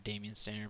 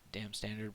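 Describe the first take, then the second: First: The first part is said as three syllables, 'damien'. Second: The first part is said as one syllable, 'dam'. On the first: "or Damien Standard brush, however you want to pronounce it" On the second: "I've heard it said Dam Standard long enough that that's what I kind of picture"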